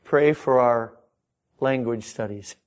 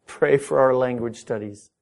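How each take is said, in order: First: Said in the usual way. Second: Pleading missionary, weight on "our"; stress on our. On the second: Retold or imitated. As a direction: lean on "our" in the repeat. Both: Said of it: "nearly every missionary".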